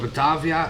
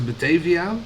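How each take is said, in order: First: The name is pronounced the Dutch way. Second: The name is pronounced the English way.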